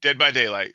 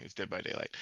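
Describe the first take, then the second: First: Said in the usual way. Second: Whispered, sheepish correction. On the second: Real, not acted. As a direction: say it under your breath. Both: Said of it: "I'm sorry".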